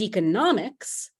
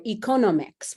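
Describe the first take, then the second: First: Economics said as eco-NOM-ics; third-syllable stress. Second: Economics stressed as e-CON-omics; second-syllable stress. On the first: Shown as a demonstration. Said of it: "has that stress on the third syllable". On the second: Retold or imitated. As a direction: imitate a learner leaning on the second syllable of economics. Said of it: "with a stress on the second".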